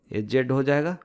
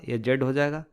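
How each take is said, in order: Both takes have the same delivery.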